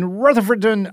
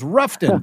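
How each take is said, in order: First: All syllables of the name are said in full. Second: The name is squeezed into two short syllables. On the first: "I believe I'm pronouncing that right" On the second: "I'm going to say it like the locals"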